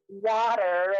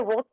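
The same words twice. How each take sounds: First: It is said in an American accent. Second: It is said in a South African accent.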